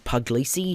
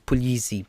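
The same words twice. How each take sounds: First: The surname is said in a simplified form. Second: The surname is said in its full original form. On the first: This is the easier version the family uses. "in my family at least, have always tried to simplify it to" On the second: This is the technically correct version. "technically, as you've been pronouncing it"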